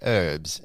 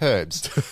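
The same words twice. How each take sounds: First: The word begins without an h sound. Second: The word begins with an h sound. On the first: This is the American way of saying it. "In America, you say herbs" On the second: This is the English way of saying it. "in England, we say herbs because there's a fucking H in it"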